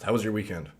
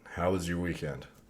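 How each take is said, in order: First: It is said very fast. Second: It is said much slower.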